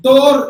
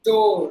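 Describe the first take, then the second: First: "Door" ending in a strong r; loud "Door" with the r pronounced; sounded R. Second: "Door" as daw; silent R. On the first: Teacher rejects this way of saying it, loud r-sounded demonstration. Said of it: "Door கிடையாது". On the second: Teacher models always-silent final R, r-less demonstration. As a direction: end "Door" on the vowel, no r. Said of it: "it is always silent". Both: Shown as a demonstration.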